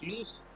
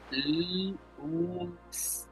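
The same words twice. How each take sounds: First: The sounds are joined into one smooth word. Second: Each sound of the word is said separately. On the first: "cuando lo unimos, decimos luz" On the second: "si definimos su sonido, sonaría luz"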